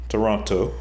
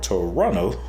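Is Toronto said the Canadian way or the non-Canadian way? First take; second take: non-Canadian; Canadian. First: The name is said in a non-Canadian way. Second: The name is said the way Canadians say it.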